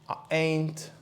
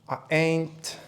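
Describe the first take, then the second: No difference in how they are said.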